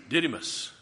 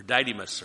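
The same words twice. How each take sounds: First: Didymus with a short i, DID-ih-mus; first syllable of Didymus rhymes with "kid"; short-i pronunciation. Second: Didymus with a long i, DIE-dih-mus; first syllable of Didymus rhymes with "tie"; long-i pronunciation. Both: Shown as a demonstration. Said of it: "I don't know how he pronounced it".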